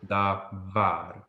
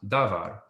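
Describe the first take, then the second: First: Davar split slowly, weight on var, da-VAR; stress on final syllable. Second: Davar stressed at the front, DA-var; stress on first syllable. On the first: Hebrew teacher showing normal word stress, davar stressed on var. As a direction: sound out davar, landing on the last syllable. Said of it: "this syllable". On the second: Hebrew teacher showing a shifted accent, davar stressed up front. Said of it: "if we had it on the first syllable". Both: Shown as a demonstration.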